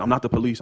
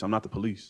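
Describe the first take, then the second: First: Mild mock yell, a bit louder; pleading half-shout in the retelling; retold scream. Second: Said in the usual way. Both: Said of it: "I'm screaming".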